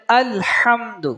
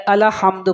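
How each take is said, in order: First: "الحمد" with lam closed straight into ح; correct reading. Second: "الحمد" with an extra a, ala-hamdu; wrong reading. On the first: Teacher models the next word, joined "الحمد". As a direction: join al to ḥamd in "الحمد". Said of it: "الحمد پڑھ دیا جاتا ہے". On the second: Teacher shows the mistake made, "الحمد" as ala-hamdu. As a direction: loosen the lam of "الحمد" into "ala". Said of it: "اس میں غلطی کی جاتی ہے". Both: Shown as a demonstration.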